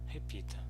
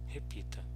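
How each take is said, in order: No difference in how they are said.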